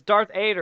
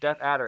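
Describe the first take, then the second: First: The name is said like Darth Ader. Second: The name is said like Death Adder. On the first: The speaker calls it wrong. "Nate kept pronouncing it as Darth Ader" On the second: The speaker calls it right. "no, dude, it's, it's Death Adder"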